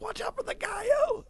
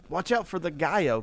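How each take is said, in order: First: Very high-pitched mock yell; called-out warning. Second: Said in the usual way. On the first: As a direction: re-enact a panicked heads-up, voice leaping way up. Re-enacts warning man crossing street.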